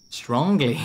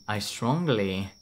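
First: Strongly punched higher and louder; stress on strongly. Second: Said in the usual way. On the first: Shown as a demonstration. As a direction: lean hard on strongly. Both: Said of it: "emphasis on the strongly".

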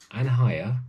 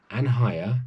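No difference in how they are said.

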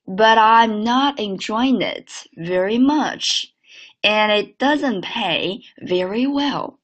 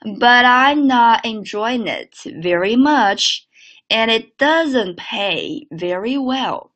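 First: Slow linked repeat; again, slowly; slow second model. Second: Slow linked model read; slow teacher's model. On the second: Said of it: "整个句子连起来". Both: Shown as a demonstration.

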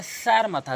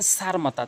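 First: "সার" with tongue tip at the teeth; correct pronunciation. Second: "সার" with a plain hissed s; wrong pronunciation. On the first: Teacher showing learners the right "সার", tongue on teeth. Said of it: "জিহ্বার আগা এবং দাঁতের আগার সঙ্গে মিলাতে হবে". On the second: Teacher showing learners the mistake, wrong "সার". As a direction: say "সার" wrongly, with an ordinary s sound. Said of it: "তাহলে আপনার উচ্চারণটাই ভুল". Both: Shown as a demonstration.

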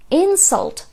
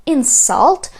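First: "insult" said IN-sult, the first syllable strong; stress on first syllable. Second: "insult" said in-SULT, the second syllable punched; stress on second syllable. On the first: Teacher demonstrating the noun, "insult" stressed at the start. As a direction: hit IN in "insult". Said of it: "вже буде іменником". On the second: Teacher demonstrating the verb, "insult" stressed on the end. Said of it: "то це стає дієсловом". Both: Shown as a demonstration.

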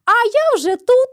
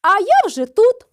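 First: A triumphant high shout, louder; hedgehog's wife shouting at the hare. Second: A triumphant call, higher and louder; shout. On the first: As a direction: call out smugly. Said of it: "і кричить". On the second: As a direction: cry out that you're already here. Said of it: "та й крикни". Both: A narrator's reading.

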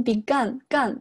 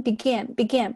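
First: "begun" with the short uh-like vowel of gun; "begun" ending like "gun", as a learner's mistake; wrong vowel demo. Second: "began" with a wide open a as in cat; "began" said as bi-GAN with the cat vowel. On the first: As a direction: say "begun" with a central vowel, not the cat a. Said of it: "不要读成begun". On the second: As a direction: stress the second syllable of "began" with a clear æ. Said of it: "它是一个梅花音began". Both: Shown as a demonstration.

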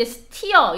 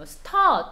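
First: "steer" with an ee-uh glide, like "stee-uh"; wrong pronunciation. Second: "stir" with one long er vowel, like "stuh"; correct pronunciation. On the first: Teacher showing students how not to read S-T-I-R, "steer" mispronounced as "stee-uh". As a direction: say "steer" with a clear ee vowel. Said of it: "steer 이렇게 발음하지 말고". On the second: Teacher modelling the right sound for students, "stir" as a drawn-out "stuh". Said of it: "발음은 stir로 발음해줘요". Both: Shown as a demonstration.

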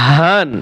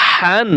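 First: হান with a plain open, airy h; big ha. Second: হান with a strong rasped throat h; small ha. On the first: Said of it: "বড় হা". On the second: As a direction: push a tight h to open হান. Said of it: "ছোট হা". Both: Shown as a demonstration.

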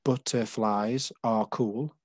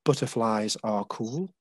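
First: "Butterflies are cool" said slowly, beat by beat; slow counted reading of "Butterflies are cool"; syllables spelled out slowly. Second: "butterflies are cool" half-whispered and slow; whispered poem line. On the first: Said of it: "the first line there". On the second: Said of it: "this one is about butterflies". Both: Shown as a demonstration.

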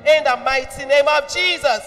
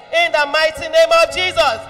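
Both takes have the same delivery.

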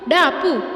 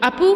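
First: ഡാ Appu called higher and louder, stress on ഡാ; calling loudly, ഡാ stressed. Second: Said in the usual way. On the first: Acted. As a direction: shout ഡാ Appu across the house. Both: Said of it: "അവൻ ഉറക്കെ വിളിച്ചു".

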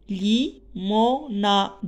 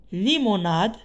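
First: "Limonade" stretched slowly, li-mo-na-de; syllables drawn out. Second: Said in the usual way. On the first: Shown as a demonstration. ("Limonade" très lentement, syllabe par syllabe) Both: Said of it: "quatre syllabes".

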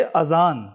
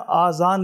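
First: अजान with a short clipped first a, zabar on alif; अजान spoken slowly, short a, as the correct form; correct short vowel. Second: आज़ान with the first a stretched long, madd on alif; आज़ान, long aa at the start as the boy recited it; wrong long first vowel. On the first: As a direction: say अजान with a quick short a, slow and deliberate. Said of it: "ये अलिफ पर भी जो है वो ज़बर है". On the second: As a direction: say आज़ान drawing out the opening aa. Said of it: "इन्होंने अलिफ पर जो है ना, वो मद डाल दी है". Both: Shown as a demonstration.

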